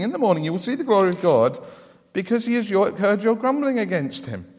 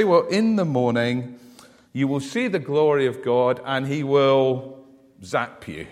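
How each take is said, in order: First: Said in the usual way. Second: Lightly acted God about to strike; imagined wrathful God. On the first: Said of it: "this passage doesn't say this. But look at verse seven". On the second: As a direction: pretend a stern divine threat. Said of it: "if I was God, you know what I'd say".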